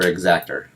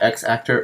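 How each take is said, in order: First: It is blended into one word like exactor. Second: It starts with the letter name X, then actor.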